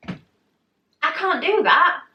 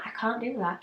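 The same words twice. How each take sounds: First: High, drawn-out mock-panicked protest; slow, squeaky refusal, pitched way up. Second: Soft, meek refusal; meek protest. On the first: Retells refusing the lift. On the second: Retold or imitated. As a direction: drop the volume, protest weakly. Retells repeating the refusal.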